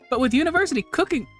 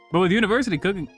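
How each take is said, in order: First: It is read in a put-on character voice. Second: It is read in the speaker's normal voice.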